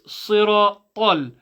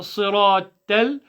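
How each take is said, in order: First: "siratal" slow with a full-mouth "tol"; drawn-out "siratal", heavy t; correct heavy ending. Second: "siratal" ending in a thin "tel"; "siratal" said with a flattened "tel" ending; wrong light vowel. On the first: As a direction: say "siratal" with the last syllable dark and rounded. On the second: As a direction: show the mistake in "siratal", last syllable light as "tel". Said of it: "it's not". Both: Shown as a demonstration.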